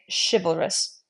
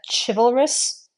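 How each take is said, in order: First: The word begins with a sh sound. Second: The word begins with a ch sound. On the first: The speaker calls it right. "we would say chivalrous. ... more of that sh sound than a ch" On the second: The speaker calls it wrong. "instead of a chivalrous"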